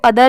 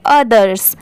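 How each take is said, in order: First: Other with no final s; incomplete pronunciation. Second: Others with the final s sounded; full pronunciation. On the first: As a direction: leave the s off other. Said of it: "इसको other नहीं पढ़ेंगे". (other, आख़िर में स की आवाज़ के बिना) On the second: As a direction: end others on a clear s, falling. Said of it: "इसको पढ़ेंगे others". (others, आख़िर में स की आवाज़ के साथ) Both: Shown as a demonstration.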